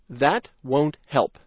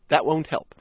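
First: The sentence is spoken slowly. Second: The sentence is spoken fast. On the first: "first slowly"

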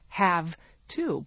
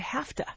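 First: The two words are said fully and separately. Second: The two words are run together quickly, like hafta. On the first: "if we were to write those words out, we would write" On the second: "we run them together, and we pronounce them very quickly"

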